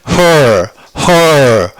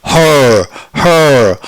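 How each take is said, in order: No difference in how they are said.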